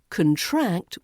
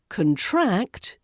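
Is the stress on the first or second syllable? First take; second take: second; second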